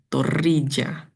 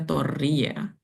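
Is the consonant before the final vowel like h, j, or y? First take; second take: j; y. First: The consonant before the final vowel sounds like English j. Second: The consonant before the final vowel sounds like y. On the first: This is how an Italian reading would sound. "Mungkin seandainya Torija ditemukan di Italia, ia akan jadi" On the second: This is how a Javanese speaker would read it. "kalau ia ditemukan oleh Pak Deku yang orang Jawa, ia akan dibaca Toria"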